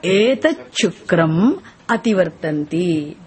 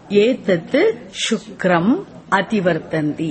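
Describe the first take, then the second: First: "etat shukram" run together as "etacchukram"; words joined. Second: "Etat shukram" said as two words, t and sh kept apart; words kept separate. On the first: Teacher giving students a line to repeat, "etat shukram" joined as "etacchukram". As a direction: turn the t and sh of "etat shukram" into one doubled ch. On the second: Teacher giving students a line to repeat, "etat shukram" split apart. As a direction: release the t of "etat" before "shukram". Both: Shown as a demonstration. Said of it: "Say now".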